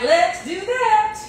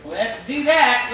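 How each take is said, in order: First: "Let's do that" lifted high and drawn out slowly; sing-song it up high and slow; playful high repeat. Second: Said in the usual way. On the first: Shown as a demonstration. Repeating the oven step to viewers in a playful high voice. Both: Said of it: "repeated in two ways".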